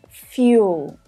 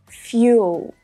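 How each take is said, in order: First: It is said with a y sound before the vowel. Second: The same.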